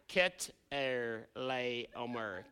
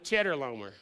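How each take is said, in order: First: It begins with a 'k' sound, four syllables. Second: It begins with a 'ch' sound, like cheddar. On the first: The speaker calls it right. "It's actually Ket-er-lay-omer" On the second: The speaker calls it wrong. "I really wanted to pronounce it Cheddar Lomer"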